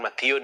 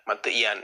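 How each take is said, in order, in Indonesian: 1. Suku kata terakhir diucapkan dengan vokal 'u'. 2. Suku kata terakhir diucapkan dengan vokal 'a'. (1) "bukan matiun ya" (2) "matian ya"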